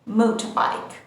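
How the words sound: The r sound is dropped.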